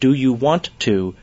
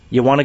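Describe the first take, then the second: First: Each word is said fully and separately. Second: The sounds are blended together into one unit. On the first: "Instead of do you want to" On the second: "assimilation. It means the combining together of sounds"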